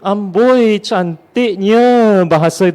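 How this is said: It is said sarcastically with a drawn-out 'nya'. The praise is meant as a mocking dig. "dengan nya yang dipanjangkan itu, saya rasa itu menjadi sindiran"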